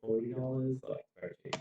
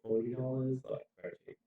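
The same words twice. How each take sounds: First: The hissing s sounds are left unfiltered. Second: The hissing s sounds are filtered and softened. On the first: "And then turn that off" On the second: "Let's just do a little snippet with it on"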